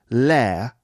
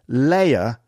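First: The vowel is flattened to fewer sounds. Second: The vowel glides through three sounds.

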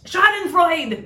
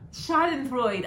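First: The word is yelled loudly. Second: The word is said at a normal, quiet volume. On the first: "There you go" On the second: "you didn't yell it"

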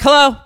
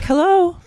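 First: It is said in a plain, flat way. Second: It is said in a very sweet way.

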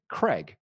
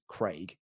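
First: The vowel is a short 'e' sound. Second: The vowel is a long 'ay' sound. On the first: "You say Craig, like C-R-E-G" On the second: "which is C-R-A-I-G"

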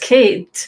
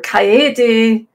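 First: The name is said as a plain English name. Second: The name is said as a Japanese name. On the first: The name was mistaken for an English name. The speaker calls it wrong. "totally bastardized it" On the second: The name is treated as Japanese. The speaker calls it right. "that's a Japanese name. And you can pronounce it like"

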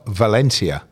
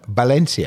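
First: The name is said with English pronunciation. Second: The name is said with Spanish pronunciation. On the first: This is how English speakers say it. "We call it Valencia" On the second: This is how Spanish speakers say it. "Spanish call it Valencia"

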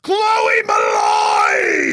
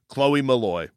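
First: The name is shouted with a gasp, excitedly. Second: The name is said in a flat, plain voice.

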